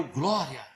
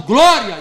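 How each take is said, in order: First: Soft, low glória under the breath; much softer and lower, restrained; subdued reply. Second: Loud imitated cry of glória; a burst of retold praise, louder. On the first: Retold or imitated. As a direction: answer very quietly, holding it in. Pastor's restrained answer after her cry. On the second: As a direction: cry out glória like a fervent convert. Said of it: "Aí ela gritou mais alto".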